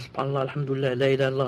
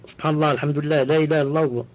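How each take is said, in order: First: It is said quietly, almost under the breath. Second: It is said loudly, with a raised voice.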